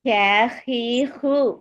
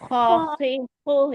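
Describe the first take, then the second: First: The syllables sound light and thin, mouth spread. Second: The syllables sound heavy and full, mouth rounded. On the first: The speaker calls it wrong. "ஹே ஹி ஹு சொல்லக்கூடாது" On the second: The speaker calls it right. "எல்லாமே வாய் oval shape வச்சு தான் சொல்லணும்"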